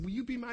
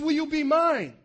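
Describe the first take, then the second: First: Said in the usual way. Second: God's question called out high and loud; loud, higher proposal from God. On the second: Acted. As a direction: proclaim it like a groom before everyone.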